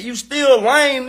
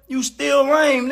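First: "lame" stretched out slow; slow sneer. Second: "lame" stretched out slow; slow sneer again. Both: Real, not acted. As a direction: drag "You still lame" out mockingly. Repeated insult, slowed.

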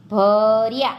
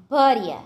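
First: ભર્યા loud and drawn out; slow word demonstration. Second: Said in the usual way. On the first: Shown as a demonstration. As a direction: stretch the first syllable of ભર્યા. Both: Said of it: "જોડણી પર ધ્યાન આપજો".

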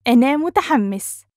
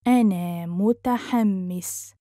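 First: Quick, higher and lively; fast, fluent model sentence; natural speed. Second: Measured, careful teaching pace. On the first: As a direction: run it together with a lift. Teacher repeats phrase at speed. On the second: Teacher repeats phrase slowly joined. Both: Shown as a demonstration.

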